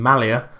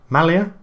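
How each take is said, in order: First: Said in the usual way. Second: MALIA with a rising, doubtful tune; questioning. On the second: Real, not acted. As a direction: query "Malia" with the pitch climbing at the end. Doubting his own pronunciation.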